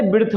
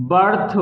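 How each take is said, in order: First: ब्रिथ said with an "ri" sound instead of "ur"; ब्रिथ: the mistaken "brith" reading of birth; wrong pronunciation. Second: बर्थ: ब plus a short "ur" sound, then थ; correct English pronunciation. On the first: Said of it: "ना ही आप इसे ब्रिथ बोल रहे हैं". (गलत उच्चारण "ब्रिथ" की नकल) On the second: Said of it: "हम इसे बोलते हैं". (बर्थ को "बर्थ" बोलिए, "ब्रिथ" नहीं) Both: Shown as a demonstration.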